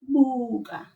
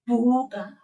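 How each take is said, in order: First: The b is said softly without a burst. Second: The b is said with a burst of air. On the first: The speaker calls it right. "we say buga" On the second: The speaker calls it wrong. "we don't say buga"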